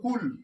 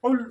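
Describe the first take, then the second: First: The first sound is a plain front k. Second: The first sound is made deep in the throat. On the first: The meaning changes to something else. The speaker calls it wrong. "কুল যদি কুল বলে শুধু কুল হবে না" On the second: It means 'say' as a command. The speaker calls it right. "এই গলার মধ্যে দিয়ে হবে"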